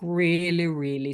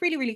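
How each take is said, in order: First: The words are spoken very slowly. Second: The words are spoken very quickly. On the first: "I can speak really, really slow" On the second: "I can speak really, really quickly"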